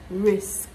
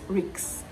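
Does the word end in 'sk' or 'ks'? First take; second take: sk; ks. First: The word ends with an 's' then a 'k' sound. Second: The word ends with a 'k' then an 's' sound. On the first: The speaker calls it right. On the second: The speaker calls it wrong. "Not ricks"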